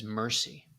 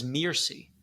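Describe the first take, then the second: First: Mercy with the "er" of "mercy"; the word mercy in place of Mircy; misheard as Mercy. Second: Mircy with an "ir" vowel as in "sir"; the real name, Mircy. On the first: Retold or imitated. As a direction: say it as the child heard it, Mercy. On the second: Shown as a demonstration. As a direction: say Mircy, not Mercy. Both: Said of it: "I always heard her name as Mercy".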